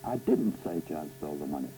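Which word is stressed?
didn't. The stress is on "didn't".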